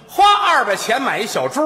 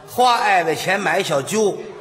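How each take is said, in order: First: Every sound is crisp and distinct. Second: The consonants are slurred with air leaking. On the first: The speaker calls it right. "真是清楚" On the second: The speaker calls it wrong. "这撒气漏风，这不行"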